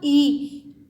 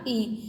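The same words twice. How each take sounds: First: ई drawn out long and slow; ई held out, long and a bit louder; long vowel. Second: ई said short and quick; ई spoken as a short vowel. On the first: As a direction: stretch ई into a long dirgha vowel. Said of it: "तो ज़्यादा ध्वनि निकल रही है". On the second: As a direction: clip the vowel ई short, as a hrasva svar. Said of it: "ह्रस्व स्वर में बोल के देखा". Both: Shown as a demonstration.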